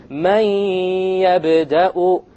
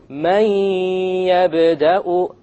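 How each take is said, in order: The two takes are said the same way.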